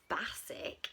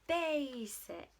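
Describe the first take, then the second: First: The first vowel is not the letter-name A. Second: The first vowel is the letter-name A. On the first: The speaker calls it wrong. "It's not basic, is it?" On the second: The speaker calls it right. "It's basic"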